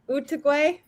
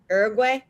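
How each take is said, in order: First: It is said with a Spanish pronunciation. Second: It is said with an American English pronunciation. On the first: This is how locals say it. "I've heard you call it Uruguay. That is that how you pronounce it there?" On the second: This is how Americans say it. "in the U S, we call it Uruguay"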